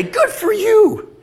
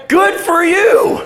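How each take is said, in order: First: High, drawn-out pretend cheer; mock congratulation. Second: Very high, loud, drawn-out cheer with a laugh; exuberant congratulation. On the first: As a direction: imitate friends gushing over holiday news. Voices people cheering cruise news. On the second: Acted. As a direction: whoop it out slowly, hammed-up delight. Cheers mom going to heaven.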